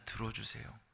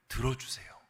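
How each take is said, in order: First: Quiet repeated 들어주세요; soft echo. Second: Said in the usual way. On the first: Acted. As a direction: drop to a hush on 들어주세요. Repeated softly as emphasis.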